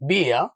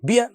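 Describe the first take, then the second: First: The vowel is said long. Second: The vowel is said short. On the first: The speaker calls it right. "നീട്ടി വായിക്കുന്ന" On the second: The speaker calls it wrong. "എന്നല്ല"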